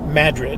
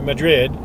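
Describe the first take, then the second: First: The stress is on the first syllable. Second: The stress is on the second syllable. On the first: This is how the local people say the name. The speaker calls it right. "with emphasis on the first syllable" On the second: This is how Spanish speakers say the name. The speaker calls it wrong. "they don't pronounce Madrid here like the Spanish do"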